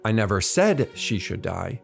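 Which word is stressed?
said. The stress falls on the word said. It was implied but not said aloud.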